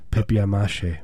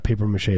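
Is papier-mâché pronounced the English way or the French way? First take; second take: French; English. First: It is said with a French-style pronunciation. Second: It is said with an English-style pronunciation. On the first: The speaker calls it right. "it's French" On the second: The speaker calls it wrong. "It's not papier-mâché"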